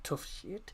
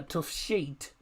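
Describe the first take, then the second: First: Tough Sheet with Sheet said like shit; mock wrong Tough Sheet, short i in Sheet; wrong pronunciation. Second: Tough Sheet said slowly with a long ee in Sheet; careful slow Tough Sheet, long vowel; correct pronunciation. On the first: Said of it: "Not Tough Sheet". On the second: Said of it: "I did pronounce that correctly". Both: Shown as a demonstration.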